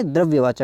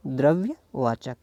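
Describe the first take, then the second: First: Said in the usual way. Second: द्रव्यवाचक drawn out in two pieces; slow, split द्रव्य and वाचक; slow dictation. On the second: Shown as a demonstration. Teacher dictates answer while writing.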